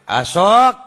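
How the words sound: The name is called in a harsh, stern voice.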